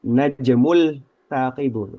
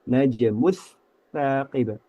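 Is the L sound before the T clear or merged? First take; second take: clear; merged. First: The L sound is pronounced clearly before the T. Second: The L sound merges into the following T. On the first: The speaker calls it wrong. "Tidak dibaca al apa?" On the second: The speaker calls it right. "lam sukunnya itu melebur ke huruf ta"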